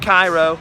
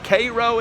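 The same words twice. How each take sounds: First: It is said like the Egyptian capital's name. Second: It is said the local Illinois way. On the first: The speaker calls it wrong. "not Cairo" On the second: The speaker calls it right. "It's not Egypt"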